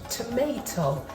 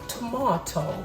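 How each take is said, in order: First: It is said with an American accent. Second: It is said with a British accent. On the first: "What do you guys call it in the United States?" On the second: "as we call it in the United Kingdom"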